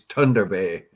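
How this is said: It is said the way locals up north say it. This is how people who live there say it. The speaker calls it right. "[name] says it's Thunder Bay"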